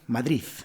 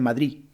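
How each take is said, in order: First: The word ends with a th-like Z sound. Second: The final D is dropped completely. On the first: "En vez de D, utilizan la Z" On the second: "Muchas personas dicen Madrid"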